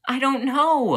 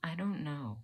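First: Loud, very high cry of frustration; exasperated outburst. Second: Soft, slightly high, subdued admission; quiet uncertainty. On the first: Student blamed either way, loud frustrated outburst. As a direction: burst out at full pitch, overwhelmed. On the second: Student wondering if it's too much, quietly lost. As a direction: admit it softly, at a loss. Quiet repeat after outburst. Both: Acted.

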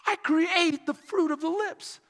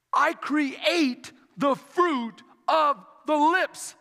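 First: "I create the fruit of the lips" in one high, connected phrase; flowing repeat. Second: "I create the fruit of the lips" very slow, word by word; slow, deliberate quote. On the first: Preacher repeating Isaiah's words to the church, high and flowing. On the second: Preacher quoting Isaiah to the church, slow and weighty. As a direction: space out "I create the fruit of the lips" with a pause between words. Scripture quoted slowly, then repeated flowing. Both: A narrator's reading.

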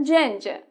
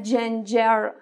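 First: جنجه ending on a vowel, "jen-juh"; silent final R. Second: جنجر ending in an audible R, "jen-jer"; lower-pitched جنجر with the R kept on the end; final R sounded. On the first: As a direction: drop the last R in جنجه. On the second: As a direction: pronounce the last R of جنجر. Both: Shown as a demonstration.

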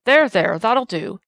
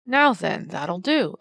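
First: Loud, firm words to settle a brawl; firm calming. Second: A firm policeman's rebuke, rising then settling; admonishing. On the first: Constable separating two men on the cobbles, loud and firm. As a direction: cut through the noise to calm him down. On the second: Constable admonishing the babbling servant, firm rebuke. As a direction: tell him off firmly. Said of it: "admonished D twenty-one". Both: A narrator's reading.

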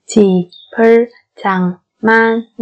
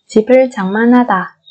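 First: Syllable by syllable. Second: Said in the usual way. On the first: Shown as a demonstration. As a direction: sound out 집을 장만하다 piece by piece. Slow syllable-by-syllable model. (đọc 집을 장만하다 chậm, tách từng âm)

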